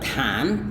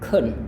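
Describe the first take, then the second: First: The word has a full, open vowel. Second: The word has a short, weak vowel. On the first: "ketimbang dia bilang can" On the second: "Mereka lafalkannya dengan kun"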